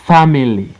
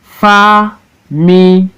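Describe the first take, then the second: First: Said in the usual way. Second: FA, MI, LY, high, slow, separate; Family in three long beats with pauses; syllable by syllable. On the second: Shown as a demonstration. Teacher showing three syllable words, Family broken as FA-MI-LY. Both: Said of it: "look at three syllable word".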